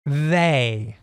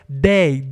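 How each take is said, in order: First: The first sound is a soft th. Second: The first sound is a hard d. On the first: "você pode pronunciar com esse som de língua presa" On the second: "a gente pronuncia esse T H como um D"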